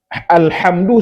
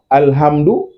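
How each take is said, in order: First: The h is rasped deep in the throat. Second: The h is a light breathy puff. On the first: All praise is for God. The speaker calls it right. "pastikan keluar dari tengah tenggorokan" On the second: All death is for God. The speaker calls it wrong. "Karena kalau salah ini fatal ini"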